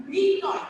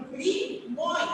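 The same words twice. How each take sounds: First: মৃন্ময় said with a doubled, held n sound; the wrong doubled way, loud; doubled pronunciation. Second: মৃন্ময় said as mrinmoy, the m sound kept; teacher gives the right form after the wrong one; correct pronunciation. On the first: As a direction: say মৃন্ময় as minnoy, n held long. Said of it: "সেটাকে যদি দ্বিত্ব উচ্চারণ করি". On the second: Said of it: "সেক্ষেত্রে হবে". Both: Shown as a demonstration.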